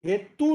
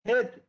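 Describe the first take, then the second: First: The final vowel is drawn out long. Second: The final vowel is kept short. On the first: The speaker calls it wrong. "हेतु नहीं" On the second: The speaker calls it right. "हेतु में छोटा ऊ"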